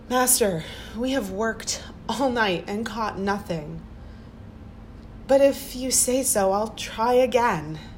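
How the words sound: It sounds resigned and pleading.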